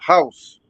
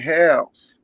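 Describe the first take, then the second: First: It is said with a Chinese accent. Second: It is said with an Alabama/Wisconsin accent.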